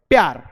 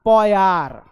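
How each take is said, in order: First: The first consonant is cut short and quick. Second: The first consonant is drawn out with a vowel. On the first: The speaker calls it right. "जब आधा लिखा है तो आधा ही पढ़ोगे।" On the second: The speaker calls it wrong. "इसको ऐसे मत पढ़ना ... ये गलत है"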